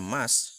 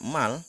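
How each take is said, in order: First: The syllable ends with a doubled S sound. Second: The syllable ends with a clear L sound. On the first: The speaker calls it right. "tetapi dibaca mas" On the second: The speaker calls it wrong. "Dia tidak dibaca mal"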